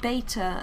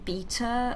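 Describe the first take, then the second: First: It is said with a non-British pronunciation. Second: It is said with a British pronunciation. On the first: "other people tend to be like beta and omega, which is probably more correct" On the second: "in England we tend to say like beta"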